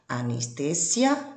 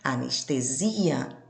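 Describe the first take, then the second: First: It carries the Spanish placement of the stressed syllable. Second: It carries the Portuguese placement of the stressed syllable. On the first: "na língua espanhola" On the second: "na língua portuguesa"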